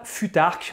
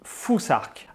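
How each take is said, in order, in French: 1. La consonne du milieu est un son 't' simple. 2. La consonne du milieu ressemble au 'th' anglais. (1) "on ne dit pas futarque" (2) "on dit fusarque"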